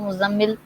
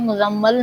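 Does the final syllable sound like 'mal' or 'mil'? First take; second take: mil; mal. First: The final syllable has an 'i' vowel. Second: The final syllable has an 'a' vowel. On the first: The speaker calls it right. "मुजम्मिल बोला जाता है" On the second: The speaker calls it wrong. "मुजम्मल नहीं होता"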